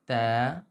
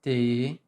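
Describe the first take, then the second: First: The vowel is said with smiling lips, mouth open. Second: The mouth barely opens, so the vowel nearly vanishes. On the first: The speaker calls it right. "You need to smile and open" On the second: The speaker calls it wrong. "without opening like t"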